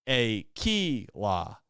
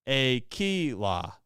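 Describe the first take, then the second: Both takes have the same delivery.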